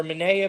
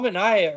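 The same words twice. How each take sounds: First: "Manaea" said muh-NAY-uh; alternate name pronunciation. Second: "Manaea" said muh-NY-uh; alternate name pronunciation. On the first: Host offering another try, "Manaea" as muh-NAY-uh. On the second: Host unsure of pitcher's name, "Manaea" as muh-NY-uh. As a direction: say "Manaea" with an EYE in the middle. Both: Shown as a demonstration. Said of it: "however you say his name".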